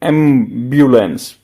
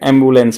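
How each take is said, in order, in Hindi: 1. बीच का अक्षर 'byu' की आवाज़ है। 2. बीच का अक्षर सादा 'bu' की आवाज़ है। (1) "ब्यूलेंस अलग अलग लेना" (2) "एम्बुलेंस बोलते नहीं"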